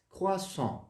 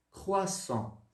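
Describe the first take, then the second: First: Croissant with nasal final on, r softened; French croissant. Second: Croissant with a scraped throaty French r; rasped French r. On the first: Teacher repeating croissant for the class. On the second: Teacher modeling the rasped French r in croissant. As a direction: rasp the r in croissant. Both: Shown as a demonstration. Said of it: "o R um pouquinho mais rasgado".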